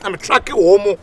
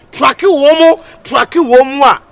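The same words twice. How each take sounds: First: Said in the usual way. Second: High, loud chant of tracking womo; loud repeat. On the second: Acted. Hype man shouting tracking womo to the crowd.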